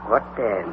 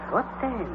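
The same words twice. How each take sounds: First: Muttering. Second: Softer, trailing-away repeat; the same question, quieter, dying off; fading mutter. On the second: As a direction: let it fade to almost nothing. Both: Acted. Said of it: "muttered again".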